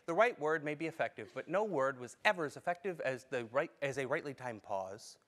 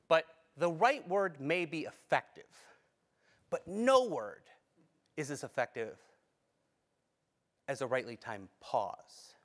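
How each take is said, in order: First: It is read out plainly, without expression. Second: It is read with expressive timing and emphasis. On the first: "That's reading it" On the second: "That adds some meaning to it by just how I say it"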